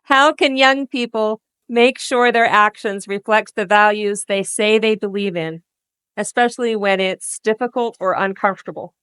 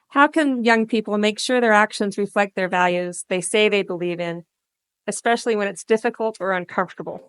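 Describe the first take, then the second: First: The question is asked slowly. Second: The question is asked fast.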